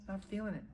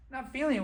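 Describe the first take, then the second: First: Soft, half-hearted excuse; reluctant backing out. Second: High-pitched disbelieving repeat; incredulous echo. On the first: Partner pulling out of the deal, soft reluctant excuse. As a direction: back out quietly and lamely. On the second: Stung man echoing his partner's excuse, incredulous. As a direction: throw the words back in disbelief. Throws partner's words back. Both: Acted.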